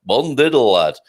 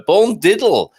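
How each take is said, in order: First: "Bon diddle, lad" in broad Yorkshire; Yorkshire accent. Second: Broad Yorkshire twist on "bon diddle"; Yorkshire bon dia. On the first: Host showing off Portuguese with a Yorkshire accent. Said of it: "My first Portuguese with a Yorkshire accent". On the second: Host greeting listeners, Yorkshire "bon diddle" joke. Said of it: "This is the Yorkshire equivalent". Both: Shown as a demonstration.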